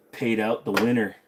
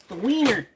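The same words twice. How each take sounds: First: Said in the usual way. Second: "wiener" said as WEE-ner, high and louder; jokey mispronunciation. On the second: Shown as a demonstration. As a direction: deliberately turn winner into wiener. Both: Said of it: "The wiener".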